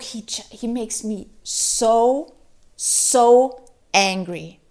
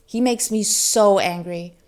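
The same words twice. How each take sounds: First: So angry. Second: Said in the usual way. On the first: Real, not acted. Reviewer fuming about the book's hero, slow angry stress. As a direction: drag out so angry, slow and louder.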